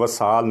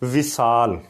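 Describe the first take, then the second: First: The first vowel is an 'a' sound. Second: The first vowel is an 'i' sound. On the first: The speaker calls it wrong. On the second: The speaker calls it right.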